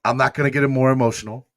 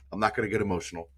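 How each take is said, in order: First: Quick, brighter push past the tears; a quick forced brightness to stop the tears; brushing off tears. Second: Soft, quiet, holding back the tears; a hushed promise not to cry; softly to himself. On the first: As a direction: shake it off and hurry on. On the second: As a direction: say it quietly to calm yourself down. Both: Real, not acted.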